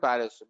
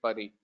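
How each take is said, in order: First: The final s sound is pronounced. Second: The word ends without an s sound. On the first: This is how outsiders say the name. "we call it Paris" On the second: This is how local people say the name. "the local people they say it Pari"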